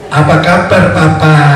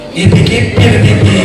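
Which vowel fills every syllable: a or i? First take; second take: a; i. First: Every vowel is spoken as a. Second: Every vowel is spoken as i. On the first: "biasanya pakai A" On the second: "diganti I semua"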